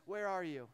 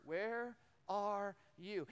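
First: Said in the usual way. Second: "Where are you?" very slow, word by word; three separate words. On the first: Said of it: "doesn't come al-, across mad or angry". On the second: Retold or imitated. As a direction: set apart each word of "Where are you?", without anger. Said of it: "God asks three words".

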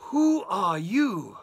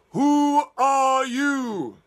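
First: A slow, louder, looming dragon voice; mother dragon. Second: A very slow, very loud, higher roar; roaring mother dragon. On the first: Mother dragon confronting the wolf, slow and loud. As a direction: loom over him with the question. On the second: Mother dragon roaring at the wolf, very slow and loud. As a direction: roar the question, drawn right out. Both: Acted.

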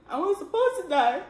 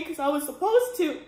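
First: "supposed" lifted higher in a repeat; stress on supposed. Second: Said in the usual way. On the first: Real, not acted. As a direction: lean on "supposed" the second time. Repeats the line for emphasis.

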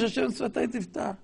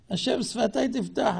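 First: Mock humble prayer. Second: Mock pious prayer. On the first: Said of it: "עכשיו הוא מבקש". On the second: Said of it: "תראה, אלה מבקשים רשות".

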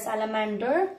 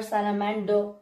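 First: American "salamander" ending in a sounded R; American accent. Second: British "salamander" ending in "doh", R silent; British accent. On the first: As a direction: give "salamander" the American R-coloured "der" ending. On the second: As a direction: drop the final R of "salamander", British-style. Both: Shown as a demonstration. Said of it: "so this you can be".

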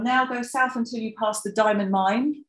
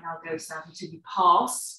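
First: "Now go south until you pass the diamond mine" with the nucleus on "mine", a rise at the end; stress on mine. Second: "Now go south until you pass" with the nucleus on "pass" and a rise; de-accented ending, nucleus on "pass"; stress on pass. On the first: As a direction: stress left on "mine" though it is old information. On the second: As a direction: put the weight on "pass". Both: Shown as a demonstration. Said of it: "we wanted really something like".

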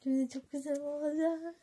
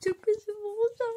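First: A touch of higher, pleased gushing; mild gushing. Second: High, loud, thrilled squeal; excited gushing. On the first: The girl will say it again, mildly gushing. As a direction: say it pleased but calmer. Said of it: "Yine diyecek". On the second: Acting out what the girl will say, high and excited. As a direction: gush it out like it's the best news ever. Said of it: "Sonra bir şey diyecek". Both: Acted.

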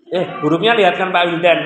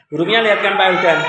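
First: Said in the usual way. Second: Fast repeat. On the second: Real, not acted.

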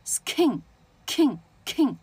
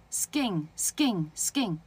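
First: Skin as "s-khin", then king with bursts of air; skin, king, king, exaggerated airy k; aspirated k. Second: Skin three times as "sgin", no air; skin, spaced out, k with no puff; unaspirated k. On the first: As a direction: puff hard on the k in skin, king, king. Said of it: "但如果你送气呢". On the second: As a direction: repeat skin evenly with a g-like k. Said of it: "你看它不抖的啊". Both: Shown as a demonstration.

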